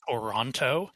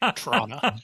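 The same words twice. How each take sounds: First: The name is said the way non-locals say it. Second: The name is said the way locals say it. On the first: The speaker is not from the city. The speaker calls it wrong. "none of the actors are locals because they all pronounce it Toronto" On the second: The speaker is from the city. The speaker calls it right. "the correct way"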